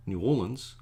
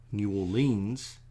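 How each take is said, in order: First: New Orleans said new OR-lunz; local pronunciation. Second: New Orleans with long or-LEENS; outsider pronunciation. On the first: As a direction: stress the OR in Orleans, short unstressed ending. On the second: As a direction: stretch the end of Orleans as LEENS. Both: Shown as a demonstration. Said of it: "is actually pronounced".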